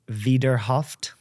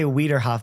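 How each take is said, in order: First: The V and T sounds are strong. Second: The V and T sounds are soft. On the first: The speaker calls it right. "but it's Wiederhoft. You hit the V and the T" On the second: The speaker calls it wrong. "always want to say"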